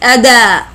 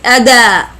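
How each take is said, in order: First: The d is followed by an a vowel. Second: The same.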